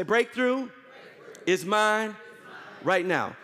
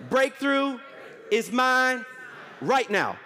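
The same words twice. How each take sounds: First: Breakthrough is mine right now, paced word by word with pauses; measured declaration. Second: Shouted declaration. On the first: Pastor leading the church in a call-and-response declaration, slow and spaced. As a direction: lay each word down slowly for the congregation to repeat. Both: Shown as a demonstration.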